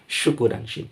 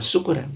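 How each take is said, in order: First: The word begins with an 'sh' sound. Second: The word begins with a plain 's' sound. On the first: Holding a thanksgiving gathering. The speaker calls it right. "Dengan ringan" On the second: Getting drunk. The speaker calls it wrong. "Tidak dengan syukuran. Syukuran itu mabuk-mabukan"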